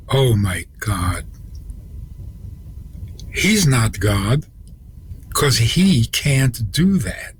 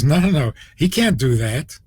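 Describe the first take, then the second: First: Slow, stunned retold realization; drawn-out words as the truth sinks in; dawning realization. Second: Imitating a cheerful, confident denial; brisk, lightly voiced smiling dismissal. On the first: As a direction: imitate someone whose face has just fallen. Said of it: "And then her face fell". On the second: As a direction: say it lightly as if through a big smile. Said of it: "with a big smile".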